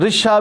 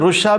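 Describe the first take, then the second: First: The first vowel is an unrounded i sound. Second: The first vowel is a rounded u sound. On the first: "व कसर ही" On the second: "बेज़म में अव्वल ही"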